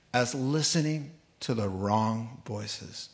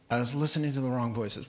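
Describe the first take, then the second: First: Slow regretful quote. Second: Said in the usual way. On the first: Retold or imitated. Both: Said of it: "here it is".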